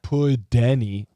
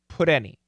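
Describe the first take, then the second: First: The T sounds like a slower, full D. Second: The T is a very quick flap. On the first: The speaker calls it wrong. "That's that's wrong. That's a D" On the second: The speaker calls it right. "it's got to be super fast"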